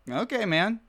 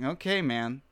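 First: It is said with a slightly positive lilt. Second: It is said in a dismissive, negative tone.

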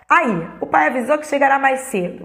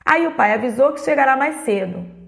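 First: It is read with fuller, more lively intonation. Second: It is read with plain, less lively intonation.

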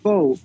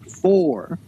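First: The word ends without an r sound. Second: The word ends with an r sound. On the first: The speaker calls it wrong. "not foe" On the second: The speaker calls it right. "their teacher is like, for"

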